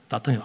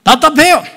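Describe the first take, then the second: First: 답답해요 said softly, short and low; quiet complaint. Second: 답답해요 cried out high and loud, falling; stifled cry. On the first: Retold or imitated. Congregation complaining about the sermon, 답답해요 said softly. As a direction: murmur 답답해요 like a listener's quiet grumble. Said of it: "답답하다는 거예요". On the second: Acted. Pastor to congregation, 답답해요 cried high and loud. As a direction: wail 답답해요 loudly then drop. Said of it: "아름다운 소리가 나는 거예요".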